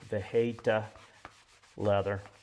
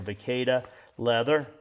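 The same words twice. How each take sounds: First: The 'hay' syllable gets strong emphasis. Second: The 'hay' syllable gets little emphasis. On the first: The speaker calls it right. "probably more emphasis on the hay" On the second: The speaker calls it wrong. "I'll say it wrong here"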